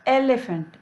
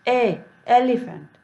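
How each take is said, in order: First: Said in the usual way. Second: ए split off, then एलिफेंट; vowel split. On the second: Shown as a demonstration. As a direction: stretch ए before एलिफेंट. (पहले ए, फिर एलिफेंट) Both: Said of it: "ई का कैसे होता है".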